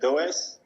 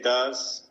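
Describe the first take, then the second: First: The name is said with a Spanish pronunciation. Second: The name is said with an English pronunciation. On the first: "in Spain, for example, it's uh" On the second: "in England, they say uh, they say"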